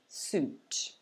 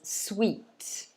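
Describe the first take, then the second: First: The vowel is a long 'oo' sound. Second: The vowel sounds like 'wee', as in sweet. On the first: The speaker calls it right. "So it's a long U sound" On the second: The speaker calls it wrong. "some people try to pronounce it as sweet, but actually it's not sweet"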